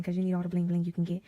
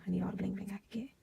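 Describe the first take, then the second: First: Said in the usual way. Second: Fast breathy whisper to herself, joking; quick whispered aside. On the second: Real, not acted. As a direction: whisper it fast as a private joke. Whispered aside after bling line.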